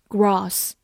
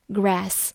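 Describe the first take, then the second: First: "gross" said as grass with a long British "ah"; British pronunciation. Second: "grass" with the open "æ" of cat; American pronunciation. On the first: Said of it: "英式发音读作". (英式发音，"gross"读作长音 grahss) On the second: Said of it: "美式发音". (美式发音，"grass"中的A读 æ) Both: Shown as a demonstration.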